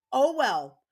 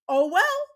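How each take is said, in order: First: "Oh well" louder but at her usual pitch, falling; firm resigned "Oh well", no mock lift; flat oh well. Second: A high, loud, scornful "oh well" with a rise on "well"; mocking oh well. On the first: Mom to the school staff, a flat, firm, resigned "Oh well". Repeats it, flatter. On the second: Mom to the school staff, a high, loud, mocking "oh well". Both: Real, not acted.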